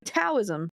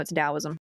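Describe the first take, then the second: First: The word begins with a hard T sound. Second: The word begins with a D sound. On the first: The speaker calls it wrong. "when I was younger and inexperienced, and I was like" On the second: The speaker calls it right.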